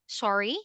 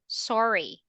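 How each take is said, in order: First: The pitch rises at the end. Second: The pitch falls at the end. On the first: The speaker asks for something to be repeated. "The intonation is going up" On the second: The speaker is apologizing. "if you're apologizing, is going down"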